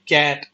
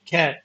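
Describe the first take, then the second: First: The first consonant is unaspirated, without a puff. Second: The first consonant is aspirated, with a puff. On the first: The speaker calls it wrong. "हम लोग हम बोलते हैं कैट" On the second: The speaker calls it right. "जबकि वो होता है"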